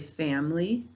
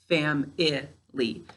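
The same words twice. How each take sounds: First: It is said with two syllables. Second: It is said with three separate syllables. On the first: "When I say it, I say it like it's two syllables" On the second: "we have to say it like it's three syllables"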